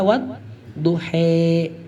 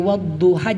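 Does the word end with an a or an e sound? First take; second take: e; a. First: The word ends with an e-like sound. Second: The word ends with an open a sound. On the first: This is the reading with imalah in other recitations. "jadi dibaca wadduhe" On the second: This is the reading without imalah. "seperti wadduha"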